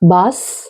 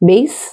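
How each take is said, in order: First: The vowel sounds like the one in 'mass'. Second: The vowel sounds like the one in 'day'. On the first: The speaker calls it wrong. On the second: The speaker calls it right.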